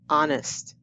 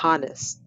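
First: The H sound is silent. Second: The H sound is pronounced. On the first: The speaker calls it right. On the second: The speaker calls it wrong.

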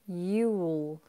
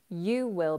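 First: It is said as one contracted syllable. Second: It is said as two full words. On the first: "You will becomes you'll" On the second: "You will becomes you'll"

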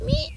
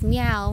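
First: It is a high, squeaky meow. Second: It is a normal, unsqueaky meow.

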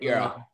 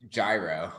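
First: It uses the Greek-style pronunciation. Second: It uses the American New York pronunciation. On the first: The speaker calls it right. "I learned a little bit of Greek ... it's a euro, right?" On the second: The speaker calls it wrong. "In New York, where I grew up in New York, they pronounced it gyro"

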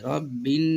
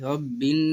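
No difference in how they are said.

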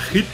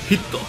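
First: The name is said as one syllable. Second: The name is said as two syllables.

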